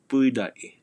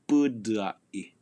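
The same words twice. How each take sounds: First: An extra E sound comes before the D. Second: An extra U sound comes after the D. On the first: "you'll hear an E sound just before that D" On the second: "you can have an extra U following the D"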